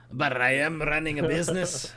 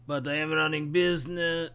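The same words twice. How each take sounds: First: Lightly voiced Watto-style trader accent, amused; shopkeeper accent. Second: A light put-on Watto-style shopkeeper accent; haggling merchant in a faint alien trader accent. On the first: Shopkeeper insisting on his price, a hint of a Watto-style accent. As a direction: repeat the line in the faint alien trader accent, half laughing. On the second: Shopkeeper haggling with a child customer, light Watto-style accent. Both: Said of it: "I really like that accent".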